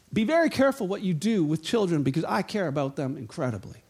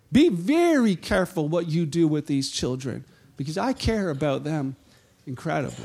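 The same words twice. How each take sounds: First: Lower, soft, sincere caution; earnest warning. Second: Tender warning. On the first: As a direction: say it gently but gravely. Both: Retold or imitated. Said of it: "tags on to it and says".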